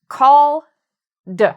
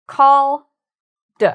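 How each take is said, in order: The two takes are said the same way.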